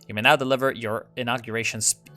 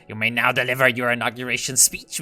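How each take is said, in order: First: It is said in the speaker's natural voice. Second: It is said in a put-on old-guard voice.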